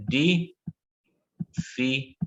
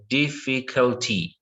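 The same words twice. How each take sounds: First: Very slow syllable split. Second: Slow model word. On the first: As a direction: stretch Difficulty out syllable by syllable, ending on a rise. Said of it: "Yeah, again". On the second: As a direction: say Difficulty slowly and clearly. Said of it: "what about this word here". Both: Shown as a demonstration.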